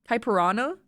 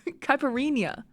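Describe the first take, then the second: First: The word ends with a plain 'rana' sound. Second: The word ends with a 'reenya' sound. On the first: The speaker calls it wrong. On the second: The speaker calls it right.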